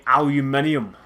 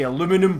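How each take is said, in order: First: Aluminium as al-yoo-MIN-ee-um, five syllables; British pronunciation. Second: Aluminum as a-LOO-mi-num, four syllables; American pronunciation. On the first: Player comparing with American speech, aluminium said the British way. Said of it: "British, you would say". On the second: Player comparing with British speech, aluminum said the American way. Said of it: "If you're American". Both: Shown as a demonstration.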